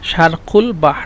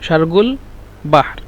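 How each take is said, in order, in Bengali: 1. শব্দটি k ধ্বনিতে বলা হয়। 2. শব্দটি gh ধ্বনিতে বলা হয়। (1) "মূলত হলো শিন র কফ শারক" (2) "এই কফকে ওরা গয়ন হিসেবে উচ্চারণ করতেছে"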